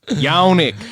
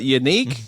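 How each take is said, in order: First: It begins with a yan sound. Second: It sounds like the word unique. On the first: "How's that not just Yannick?" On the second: "his name being pronounced unique"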